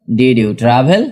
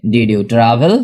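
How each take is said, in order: Both takes have the same delivery.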